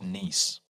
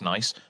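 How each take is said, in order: First: It sounds like the French city name Nice. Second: It sounds like the ordinary English word nice. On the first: The speaker calls it right. "they're pronounced nice" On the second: The speaker calls it wrong. "they're not actually pronounced nice"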